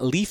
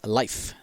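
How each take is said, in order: First: The vowel is a long 'ee' sound. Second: The vowel is an 'eye' sound. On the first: The speaker calls it wrong. "I've been pronouncing his name's not Leaf" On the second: The speaker calls it right. "it is Life. That's how you pronounce it"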